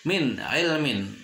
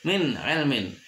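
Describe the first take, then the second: The two takes are said the same way.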